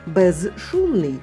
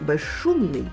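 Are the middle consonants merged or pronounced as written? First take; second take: as written; merged. First: The middle consonants are pronounced separately, as spelled. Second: The middle consonants merge into one long sound.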